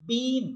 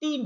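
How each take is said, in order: First: বিন with the middle ee drawn out long; long ee in bin. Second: টিন with a short clipped i, no stretch; short i in tin. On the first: Teacher models the long ee in বিন for students. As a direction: stretch the vowel of বিন. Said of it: "এটা কিন্তু টান দিয়েছি". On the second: Teacher models the short i in টিন against বিন. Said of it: "কোনো টান আমরা দেইনি". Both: Shown as a demonstration.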